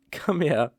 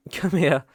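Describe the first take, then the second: First: Whispered. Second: Louder, higher, pulling her in; urgent come here. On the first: To his tearful old flame, a whispered come here. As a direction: breathe it tenderly, almost no voice. Gently pulling her into a hug. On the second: Right after she kisses him, an eager louder come here. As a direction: call it out with sudden longing. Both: Acted.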